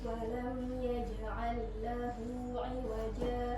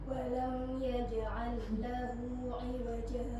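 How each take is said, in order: Both takes have the same delivery.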